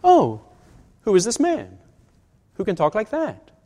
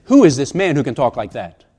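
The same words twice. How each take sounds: First: Higher-pitched, wide-eyed curious question; marveling, sincere curiosity; innocent wonder. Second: Indignant challenge in one run; disapproving, pointed rhetorical question. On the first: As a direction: ask it in genuine awe, unhurried and broken up. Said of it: "they didn't mean". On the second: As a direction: demand it as an accusation, expecting no answer. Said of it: "meant it as a rhetorical question". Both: Shown as a demonstration.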